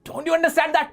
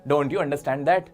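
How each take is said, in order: First: It sounds like a harsh scolding. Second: It sounds mild, with no scolding.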